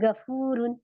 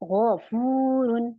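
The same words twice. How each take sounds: First: The first sound is a thin, light g. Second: The first sound is heavy, from the throat. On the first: The speaker calls it wrong. "अब मैं ऐसे नहीं पढ़ रही गफूरुन, गलत, क्योंकि मैंने गाफ बना दिया" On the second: The speaker calls it right. "मुझे इसे हेवी बनाना है"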